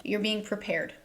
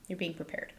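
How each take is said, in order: First: Said in the usual way. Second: Much softer, almost to herself; quiet echo of the last line; soft repeat. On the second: Shown as a demonstration. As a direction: let the repeat sink down soft. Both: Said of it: "repeated reassurance, second softer".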